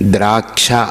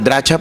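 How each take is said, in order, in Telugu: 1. 'ksh' సమూహాన్ని స్పష్టమైన బలంతో ఉచ్చరిస్తారు. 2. 'ksh' సమూహాన్ని బలం లేకుండా, బలహీనంగా ఉచ్చరిస్తారు. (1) "ఆ క్ష ఒత్తు ఉండాలి" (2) "చాలామంది ద్రాక్ష పండు ద్రాక్ష పండు అంటారు"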